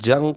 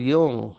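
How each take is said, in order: First: The name begins with a J sound. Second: The name begins with a Y sound. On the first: The speaker calls it wrong. "जिसे भारतवासी Karl जंग कहते हैं। वो जंग नहीं है" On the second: The speaker calls it right. "उसका प्रोनाउंसिएशन उच्चार यूंग है"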